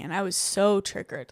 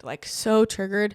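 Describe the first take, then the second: First: Said in the usual way. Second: Slowed, leaning hard on "so"; the repeat lands heavier on "so"; stress on so. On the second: Real, not acted. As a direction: stretch out "so triggered" for emphasis.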